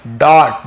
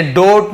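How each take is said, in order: First: "डॉट" with an open aw, louder; teacher modelling aw in "डॉट"; right pronunciation. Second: "डोट" with a closed long o, louder; teacher giving "डोट" as what not to say; wrong pronunciation. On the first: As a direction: punch "डॉट" with a rounded aw vowel. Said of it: "अ ध्वनि निकल रहा है". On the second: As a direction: show the mistaken long o in "डोट". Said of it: "नोट नहीं पढ़ेंगे". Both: Shown as a demonstration.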